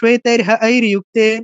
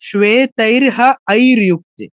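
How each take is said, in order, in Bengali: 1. দ্রুত বলা হয়, একসাথে সুন্দরভাবে মিলিয়ে। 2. ধীরে বলা হয়, অংশে অংশে ভেঙে। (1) "এরপর তাড়াতাড়ি" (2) "এই ভেঙে স্লোলি পড়েছি"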